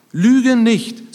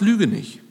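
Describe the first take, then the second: First: "Lüge nicht" higher and firmer; emphatic command. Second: Said in the usual way. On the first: Shown as a demonstration. Preacher repeats Paul's command to the congregation, emphatic "Lüge nicht".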